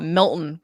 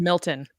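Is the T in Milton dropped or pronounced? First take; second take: dropped; pronounced. First: The T sound in the middle is dropped. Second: The T sound in the middle is pronounced. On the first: "Here in the Northeast, we call it Milton. We don't say the T" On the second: "but it is"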